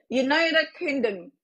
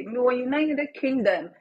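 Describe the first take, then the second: First: United Kingdom drawn out slowly, syllable by syllable; slow, deliberate. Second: Said in the usual way. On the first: Shown as a demonstration. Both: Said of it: "What country?".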